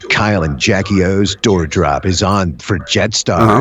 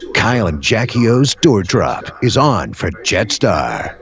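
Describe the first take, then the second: First: It is read plainly, without much attitude. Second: It is read in a lively, over-the-top way.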